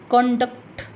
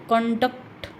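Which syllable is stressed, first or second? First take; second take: first; first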